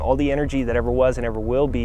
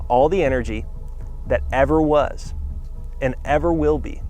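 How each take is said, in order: First: It is spoken at a normal, quicker pace. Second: It is spoken at a deliberately slower pace.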